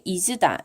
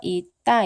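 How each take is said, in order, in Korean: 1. 첫 음절은 분명하게 들리는 s 소리로 끝나요. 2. 첫 음절은 막힌 t 소리로 끝나요. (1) "중세 시기에는 있다를 이즈다 이렇게 발음을 한 것으로" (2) "오늘날 있다라고 얘기를 해서 있다 이렇게 발음을 한다면"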